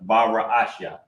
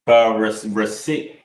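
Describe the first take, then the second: First: The word ends with a 'shya' sound. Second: The word ends with a 'sit' sound. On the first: The speaker calls it right. "That's how you say in the beginning in the Lashon Kodash" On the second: The speaker calls it wrong. "That's the Yiddish pronunciation"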